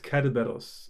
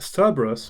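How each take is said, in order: First: The name begins with a K sound. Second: The name begins with an S sound. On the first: This is the original Greek form. The speaker calls it right. "in Greek it's Kerberos" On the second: This is the usual English form, taken via Latin. The speaker calls it wrong. "it's pronounced like a C, uh, like an S"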